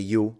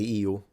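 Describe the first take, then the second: First: The word begins with a 'y' glide sound. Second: The word begins with a full 'ee' vowel. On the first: "It's more of an Eastern pronunciation" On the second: "Some people say io"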